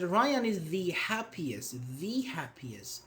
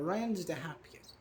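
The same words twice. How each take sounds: First: "the happiest" drawn out slowly, the as "thee"; slow, stressed "thee" before happiest; emphatic "the". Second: Said in the usual way. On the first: Shown as a demonstration. Teacher praises Ryan as example, emphatic "thee happiest". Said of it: "how you want to put emphasis". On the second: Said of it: "It depends on how".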